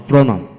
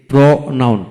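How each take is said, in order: First: Said in the usual way. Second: pronoun in two beats, pro, noun; split into syllables. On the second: Shown as a demonstration. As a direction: pause after pro in pronoun. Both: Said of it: "দুটি syllable থাকে".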